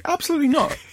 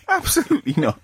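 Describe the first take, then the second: First: Emphatic refusal. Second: High, laughing absolutely not; giggling no way; laughing refusal. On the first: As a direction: flatly refuse it, voice shooting up. Refusing snake near him. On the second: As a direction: say it again while laughing. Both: Real, not acted.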